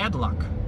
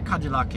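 First: It is said with an American pronunciation. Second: It is said with a Brazilian pronunciation. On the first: The speaker calls it right. "é Cadillac" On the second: The speaker calls it wrong. "Não é Cadillac"

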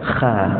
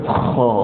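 First: The kha sound is light and thin. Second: The kha sound is heavy and full. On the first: The speaker calls it wrong. "jangan Kha" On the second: The speaker calls it right. "Kita belajar dalam sifat huruf isti'la, jadi kena sebut Kha"

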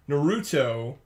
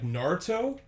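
First: The U sound in the middle is pronounced. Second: The U sound in the middle is dropped. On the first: This is how it looks from the spelling. "there's a U in there, so you gotta pronounce the U" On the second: This is how the show says it. "like the U is silent"

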